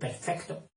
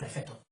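First: The c before the t is pronounced. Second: The c before the t is dropped. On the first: "en vez de decir perfecto" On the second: "en Galicia, se comen la C"

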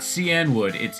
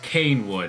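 First: The first part sounds like 'see-an'. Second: The first part sounds like 'cane'. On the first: The speaker calls it right. "how I pronounce it correctly" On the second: The speaker calls it wrong. "it's Canewood"

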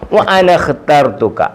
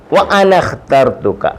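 First: The alifs are silent, joining the words into one. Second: The same.

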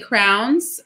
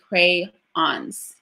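First: The word is squeezed into one syllable. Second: The word is said clearly in two syllables. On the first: This is how people commonly say it. The speaker calls it wrong. "We say crowns" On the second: This is how the word is really said. The speaker calls it right. "but it's really crayons"

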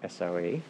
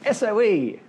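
First: It is said in a displeased, grim tone. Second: It is said in a pleased, happy tone. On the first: The employees dislike the standard environment. "say it like that" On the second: The IT leaders like the standard environment. "say SOE and are happy"

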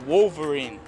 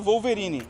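First: It is said with an American English accent. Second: It is said with a Brazilian Portuguese accent. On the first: "aqui nos Estados Unidos" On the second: "No Brasil a gente fala Wolverine"

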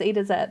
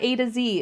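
First: The last letter is pronounced zed. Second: The last letter is pronounced zee. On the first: This is the way Canadians say it. The speaker calls it right. "It's A to Z" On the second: This is the way other people say it. The speaker calls it wrong. "It's not A to Z"

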